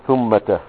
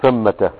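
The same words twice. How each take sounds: First: "ثمة" with u after th, thummata; damma on tha. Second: "ثمة" with a after th, thammata; fatha on tha. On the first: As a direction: slowly say "ثمة" as THUM-ma-ta. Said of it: "وممكن تدخل عليها التاء". ("ثمة" بضم الثاء) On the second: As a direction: say "ثمة" as THAM-ma-ta. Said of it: "على كليهما". ("ثمة" بفتح الثاء) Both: Shown as a demonstration.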